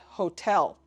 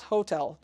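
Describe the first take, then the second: First: The stress is on the second syllable. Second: The stress is on the first syllable. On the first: The speaker calls it right. "with an emphasis on tel" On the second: The speaker calls it wrong. "not hotel"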